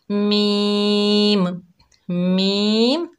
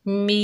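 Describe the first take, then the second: First: मीम pushed into the nose, nasal sound; मीम with a nasal twang, as some people say it; nasal wrong way. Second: मीम said clean, without nasal sound; मीम the right way, no nasal twang; correct pronunciation. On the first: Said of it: "आवाज़ जो है नाक में जा रही है". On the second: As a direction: say मीम clearly, not through the nose. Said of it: "हमने कैसे पढ़ना है?". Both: Shown as a demonstration.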